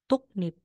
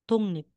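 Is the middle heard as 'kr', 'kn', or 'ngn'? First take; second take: kn; ngn. First: The middle consonants sound like k followed by n. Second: The middle consonants sound like ng followed by n. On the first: "magiging tuknip" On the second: "Magiging tungnip"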